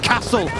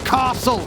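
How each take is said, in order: First: It is said in the speaker's own accent. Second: It is said in an imitated southern accent. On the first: The speaker calls it right. "it's castle" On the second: The speaker calls it wrong. "not castle"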